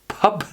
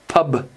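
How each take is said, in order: First: The final consonant is strong, almost a P. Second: The final consonant is a soft, swallowed B. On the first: The speaker calls it wrong. "make it almost like more of a P sound than a B" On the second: The speaker calls it right. "The correct pronunciation would be pub"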